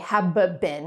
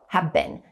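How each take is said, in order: First: The b sound is pronounced twice. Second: The b sound is pronounced only once. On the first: The speaker calls it wrong. "I don't say have been, I don't pronounce the b sound twice" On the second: The speaker calls it right.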